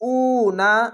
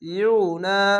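First: The syllable starts with a plain 'u' sound. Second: The syllable starts with a 'yu' sound. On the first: The speaker calls it wrong. "অনেক সবাই উ না এরকম নাই" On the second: The speaker calls it right. "এখানে অবশ্যই ইউ না ইউ না"

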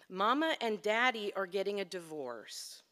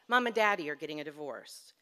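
First: The words are said separately, not run together. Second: The words are run together like one word.

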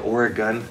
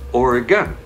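First: The name is pronounced in an odd way. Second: The name is pronounced in the standard way. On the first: The speaker calls it wrong. "I said Oregon, it's sort of strange" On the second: The speaker calls it right. "Say it with me"

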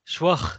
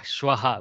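First: The word ends on a bare h breath. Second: A short vowel is sounded after the final h. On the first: The speaker calls it wrong. "shwah is very difficult to hear by the other party" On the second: The speaker calls it right. "we kind of air it fully with a swara after the h"

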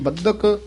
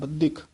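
First: The second syllable has an 'a' vowel. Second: The second syllable has an 'i' vowel. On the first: The speaker calls it right. "ਇਹ ਬੱਧਕ ਹੀ ਪਾਠ ਹੈ, ਇੱਥੇ ਸਿਹਾਰੀ ਨਹੀਂ ਲੱਗੀ" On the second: The speaker calls it wrong. "ਬੱਧਕ ਇਸ ਤਰ੍ਹਾਂ ਨਹੀਂ ਬੋਲਣਾ"

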